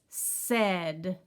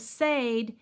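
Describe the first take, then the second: First: The vowel is a short lax 'eh' sound. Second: The vowel sounds like the letter name A. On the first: The speaker calls it right. "he makes the lazy A sound" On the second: The speaker calls it wrong. "the letter A should make his sound, which is his name"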